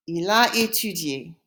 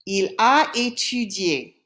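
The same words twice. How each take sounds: First: Said in the usual way. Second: Slow, careful French teaching delivery; slow model answer. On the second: Shown as a demonstration. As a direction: draw out each word for learners. Teacher gives answer slowly in French.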